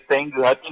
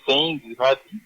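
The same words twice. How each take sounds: First: Senguhati said compactly as seng-ha-ti, no extra vowel after the ng; correct pronunciation. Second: Senguhati drawn out slowly with an added i, seng-gi-ha-ti; wrong pronunciation. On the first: Teacher showing the radio audience the correct Senguhati, compact. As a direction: model Senguhati the right way, tight and quick. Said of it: "su pronunciación es". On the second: Teacher contrasting the wrong Senguhati for listeners, slow with the extra syllable. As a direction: show the mistaken Senguhati, slow with the extra vowel. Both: Shown as a demonstration.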